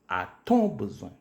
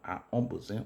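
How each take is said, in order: First: A t sound is inserted before 'on'. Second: No t sound is inserted before 'on'. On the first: The speaker calls it right. "on ajoute un petit T qu'on appelle le T euphonique" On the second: The speaker calls it wrong. "Et non pas"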